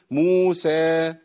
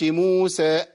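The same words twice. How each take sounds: First: "موسى" drawn long, final alif fading out freely; مد ينقطع لوحده. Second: "موسى" with the final alif chopped by a glottal stop; مد مقطوع. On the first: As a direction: let the last vowel of "موسى" die away by itself. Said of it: "لازم أخلي الصوت ينقطع لوحده". ("موسى" بمد ينتهي في الهواء دون همزة) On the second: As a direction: cut the last vowel of "موسى" off on a hamza. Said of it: "ما أقولش". ("موسى" بهمزة زائدة تقطع المد) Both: Shown as a demonstration.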